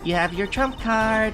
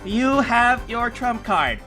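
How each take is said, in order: First: The line sounds like natural speech. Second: The line sounds stiffly read from paper.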